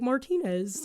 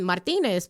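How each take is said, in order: First: It is said with English sounds. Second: It is said with Spanish sounds. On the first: This is the form adapted to English. "you start to like anglicize it, and you're like Martinez" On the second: This is the form the speaker grew up with. "I'm used to the ah, and then Martinez"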